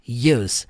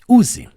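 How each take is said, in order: First: It sounds like 'you' followed by a z. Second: It sounds like the Portuguese word 'use'. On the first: The speaker calls it right. "No inglês você fala use" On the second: The speaker calls it wrong. "É exatamente em português como se escreve. ... Você não fala assim no inglês"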